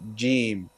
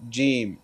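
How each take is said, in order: First: The first sound comes with little puff of air. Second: The same.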